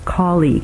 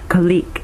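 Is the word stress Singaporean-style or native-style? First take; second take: native-style; Singaporean-style. First: The word stress follows the native English pattern. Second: The word stress follows the Singaporean pattern. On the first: The speaker calls it right. "instead of" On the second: The speaker calls it wrong. "these are very commonly pronounced differently in Singapore. We hear"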